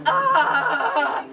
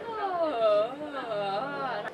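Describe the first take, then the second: First: Loud strained ah with a laugh; ugly strained ah. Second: Smoothed ah. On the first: Teacher shows her ugly spot, a loud strained ah. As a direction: push loudly into the ugly spot. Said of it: "that ugly spot". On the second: Teacher shows the smoothed-out ah after practice. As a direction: let the ah come out smooth. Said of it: "I can smooth it out". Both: Shown as a demonstration.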